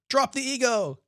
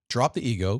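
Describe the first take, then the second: First: It is said slowly. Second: It is said at normal speed.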